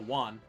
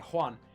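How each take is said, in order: First: The name begins without an H sound. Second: The name begins with an H sound. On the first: The speaker calls it wrong. "You don't go Juan" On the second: The speaker calls it right. "to put that little H in Juan"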